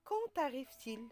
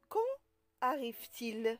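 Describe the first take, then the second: First: Quand is linked to arrive with a t sound. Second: Quand and arrive are kept separate, no linking sound. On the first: The speaker calls it wrong. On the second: The speaker calls it right.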